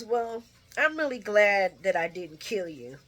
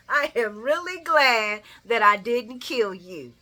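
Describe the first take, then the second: First: Laughing through the line; laughing quote. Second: Louder, slow savoring repeat. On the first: Vlogger laughing while quoting Ava. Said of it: "she says". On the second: Vlogger savoring Ava's line again. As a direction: relish every word. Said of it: "I love me some Ava". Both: Retold or imitated.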